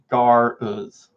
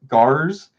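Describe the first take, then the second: First: The name is said as two syllables. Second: The name is said as one syllable. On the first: "or is it Gar-uz? ... two words" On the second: "like one word"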